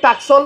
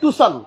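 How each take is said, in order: First: A k sound is heard in the middle. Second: No k sound is heard in the middle. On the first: The speaker calls it wrong. "মুখে বলতে ভুল করি। অনেকে বলি টাকসন" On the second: The speaker calls it right. "সঠিক নাম হচ্ছে টুসান"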